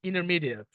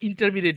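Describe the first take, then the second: First: One consonant sound in the word is dropped. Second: Every consonant sound in the word is pronounced. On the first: The speaker calls it right. "Drop letter" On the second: The speaker calls it wrong. "না"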